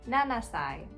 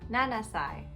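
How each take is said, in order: The two takes are said the same way.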